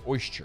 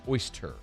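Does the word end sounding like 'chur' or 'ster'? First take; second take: chur; ster. First: The ending sounds like 'chur'. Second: The ending sounds like 'ster'. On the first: The speaker calls it wrong. "mispronounce it. You say oyster" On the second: The speaker calls it right. "There's no chur in oyster. It's oyster"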